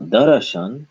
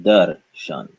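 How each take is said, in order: First: Darashan said with an extra a after r; wrong darashan. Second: Darshan said slowly, dar-shan. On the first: Teacher shows the wrong darashan. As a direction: say da-ra-shan. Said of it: "but darshan". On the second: Teacher gives the right darshan slowly. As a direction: say darshan deliberately in two syllables. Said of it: "Not darashan". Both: Shown as a demonstration.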